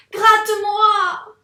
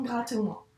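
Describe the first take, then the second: First: Very high, loud, drawn-out cry; exclaimed demand. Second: Said in the usual way. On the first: Shown as a demonstration. Teacher modelling the reading for the pupil, loud high cry. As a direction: shout the plea to show the exclamation mark. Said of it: "je te montre comment on doit lire". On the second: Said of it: "il faut un peu accentuer sa voix".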